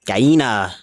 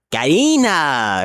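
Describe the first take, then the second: First: Said in the usual way. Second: Gallina drawn out slowly, pitch lifted, Spanish sounds; slow Spanish word. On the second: Shown as a demonstration. Gamer showing viewers a Spanish word, drawn out slowly. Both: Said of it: "Spanish word unlocked".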